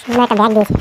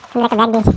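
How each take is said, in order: Both takes have the same delivery.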